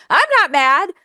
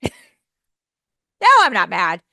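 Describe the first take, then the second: First: High, louder, mock-sulky I'm not mad; sarcastic denial. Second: Huffy denial. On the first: Teacher mocking someone who says they're not mad, high and sulky. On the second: Retold or imitated. Teacher imitating a huffy friend denying anger. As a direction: snap it like an obviously annoyed person. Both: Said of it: "heard someone say".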